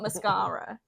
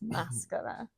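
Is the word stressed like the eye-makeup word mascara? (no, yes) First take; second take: yes; no. First: The stress falls like the eye-makeup word. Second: The stress falls unlike the eye-makeup word. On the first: The speaker calls it wrong. "not mascara, like the eye makeup" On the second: The speaker calls it right. "but it's mascara"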